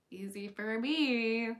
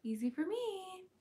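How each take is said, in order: First: Said in the usual way. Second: Pitched up high and bright. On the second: Shown as a demonstration. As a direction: lift the pitch way up.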